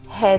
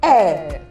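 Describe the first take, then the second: First: It begins with a breathy h sound. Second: It begins directly with the vowel, no h. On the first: The speaker calls it wrong. "a lot of people believe that you should aspirate" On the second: The speaker calls it right. "No, it's the heir"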